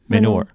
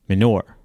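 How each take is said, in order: The two takes are said the same way.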